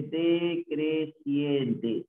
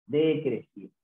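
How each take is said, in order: First: "decreciente" chanted out syllable by syllable; very slow, measured "decreciente"; slow sounding-out. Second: Said in the usual way. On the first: Shown as a demonstration. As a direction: stretch every syllable of "decreciente". Teacher stresses the term.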